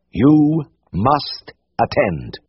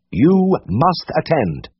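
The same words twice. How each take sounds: First: "You must attend" drawn out very slowly, each word weighed; slow emphatic. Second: "You must attend" again very slowly, weight on "You"; slow emphatic. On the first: Siegfried lays down the rule to James, slow and solemn. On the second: Siegfried repeats the rule to James, slow and emphatic. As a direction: hammer the rule home slowly. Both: A narrator's reading.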